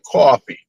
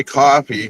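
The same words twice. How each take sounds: First: "coffee" as "cawfee", Massachusetts style; Massachusetts accent. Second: Said in the usual way. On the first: Retold or imitated. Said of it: "with that Massachusetts accent". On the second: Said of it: "But anytime she'd say coffee".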